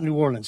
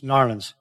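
First: The name is said in full, New Orleans. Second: The name is squeezed into two syllables, Narlands. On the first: The speaker calls it wrong. "It's not New Orleans" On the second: The speaker calls it right. "it's Narlands"

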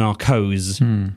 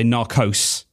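First: The word ends in a soft z sound. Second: The word ends in a hard s sound. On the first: "as opposed to narcos, because narcos would be the plural" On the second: "as the Americans might say, narcos with a hard S"

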